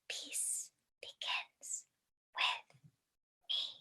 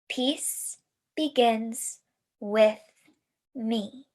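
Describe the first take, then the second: First: It is whispered without voice. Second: It is spoken aloud in a normal voice.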